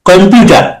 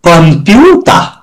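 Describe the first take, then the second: First: It is said with an English-style pronunciation. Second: It is said with a Japanese-style pronunciation. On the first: "তাহলে সঠিক হয় ইংলিশের সাথে।" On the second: "ওরা বলবে কম্পিউটার।"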